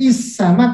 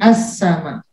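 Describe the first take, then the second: First: The word begins with an i vowel. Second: The word begins with an a vowel. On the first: The speaker calls it wrong. "tidak is sama" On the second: The speaker calls it right. "tapi as sama"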